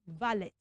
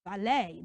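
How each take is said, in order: First: "valet" as VA-LET; wrong ET ending. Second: "valet" low, as va-LAY; AY ending. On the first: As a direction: end "valet" on short E plus T. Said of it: "not valet". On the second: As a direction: end "valet" on a long AY, silent T. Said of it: "We pronounce that word". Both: Shown as a demonstration.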